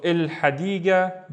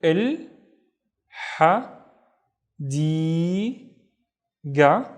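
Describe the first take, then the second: First: Said in the usual way. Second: "Il ha di ga" with long pauses between syllables; teacher's isolated syllables, "Il ... ha ... di ... ga"; split into syllables. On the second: Shown as a demonstration. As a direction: sound out "Il ha di ga" one syllable at a time, di held long. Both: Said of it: "splitting it into syllables first".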